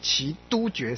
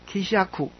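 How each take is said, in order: First: The middle syllable is pronounced du. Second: The middle syllable is pronounced sha. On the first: The speaker calls it wrong. "绝对不会是奇都觉山啊" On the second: The speaker calls it right. "我习惯念成这样"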